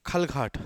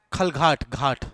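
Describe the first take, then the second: First: Said in the usual way. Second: खलघाट, then घाट alone, with a firm aspirated gh in घाट; clarifying the घ. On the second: Shown as a demonstration. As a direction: spell out खलघाट by ear, repeating घाट with a clear gh. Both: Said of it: "घा घड़ा वाला घाट".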